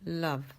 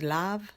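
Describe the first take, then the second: First: The vowel is a relaxed, neutral A sound. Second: The vowel is a wide open A sound. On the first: The speaker calls it right. "una A relajada" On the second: The speaker calls it wrong. "no es love"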